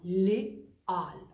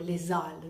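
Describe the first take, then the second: First: The words are said with no linking z sound. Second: A z sound links the two words. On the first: The speaker calls it right. "no, leal" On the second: The speaker calls it wrong. "no digo lesal"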